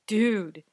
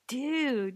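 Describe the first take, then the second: First: It is said in a negative, disapproving way. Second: It is said in a positive, approving way.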